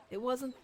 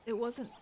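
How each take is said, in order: Both takes have the same delivery.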